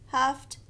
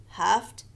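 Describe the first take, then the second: No difference in how they are said.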